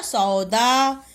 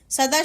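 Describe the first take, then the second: First: सौदा very slow, long औ; सौदा stretched as "sau-daa"; corrected word. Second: सदा with a short "a" after स; quick first vowel in सदा; misspelt word. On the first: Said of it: "क्या होता है". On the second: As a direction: say सदा as "sa-daa", no औ. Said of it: "शब्द नहीं होता". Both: Shown as a demonstration.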